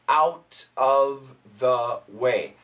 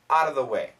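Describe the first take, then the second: First: Each word is said fully, including the F. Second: It is fast, with 'out of' blurred into 'outta'. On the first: "Perfect pronunciation" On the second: "when we say it quickly"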